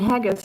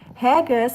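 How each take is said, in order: First: The word is said with ordinary English sounds. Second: The word is read with Japanese-style sounds.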